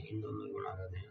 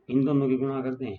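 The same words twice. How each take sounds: First: Quiet echo of the step; soft aside to the class; soft repeat. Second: Loud, pitched-up classroom call; firm teacher's call for attention; emphatic announcement. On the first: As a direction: say it again softly, almost to yourself. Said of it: "teacher repeats the step softly". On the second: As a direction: announce the step to the whole class. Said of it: "teacher states the step loudly". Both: Shown as a demonstration.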